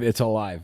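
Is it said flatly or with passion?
flatly. It is said flatly, without feeling.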